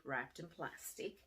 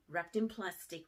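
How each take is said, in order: First: "wrapped in plastic" repeated softer and slow; hushed repeat. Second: Said in the usual way. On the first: Shown as a demonstration. Teacher building suspense over the gift, hushed and slow. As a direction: drop into a hushed, suspenseful echo.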